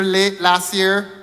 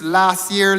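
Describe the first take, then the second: First: "late" slowed and stressed as a correction. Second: Said in the usual way. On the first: Shown as a demonstration. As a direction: lean slowly on "late" in "late last year".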